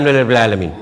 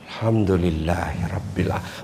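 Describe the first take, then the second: First: It is said quickly and carelessly, words slurred. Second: It is said slowly and feelingly, with clear words. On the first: The words are said without meaning them. The speaker calls it wrong. "Tapi kalau bilang jadi saja" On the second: The gratitude reaches the heart. The speaker calls it right. "Metok tu hati ketita. Sampai di hati itu"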